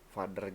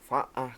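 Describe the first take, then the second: First: It is said with a clear non-British pronunciation. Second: It is said in a British accent, no r.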